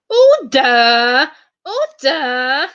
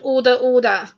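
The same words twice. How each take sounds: First: It is said in a put-on Mister Speaker voice. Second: It is said in the speaker's normal voice.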